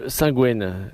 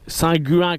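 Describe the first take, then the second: First: The name ends with a 'gwen' sound. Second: The name ends with a nasal 'guin' sound. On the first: The speaker calls it right. "on quitte la la chapelle Saint-Gwen" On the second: The speaker calls it wrong. "comme dirait euh... Oise"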